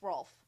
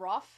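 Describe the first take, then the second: First: The L sound is clearly pronounced. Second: The L sound is left out. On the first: "I can't not pronounce the L in Rolf" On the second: "some people don't say the L sound"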